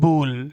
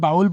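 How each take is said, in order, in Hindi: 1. स्वर "go" में oh की तरह सुनाई देता है। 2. स्वर "cow" में ow की तरह सुनाई देता है। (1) "तो क्या बोलेंगे" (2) "बाउल बोलते चले आ रहे हैं ना"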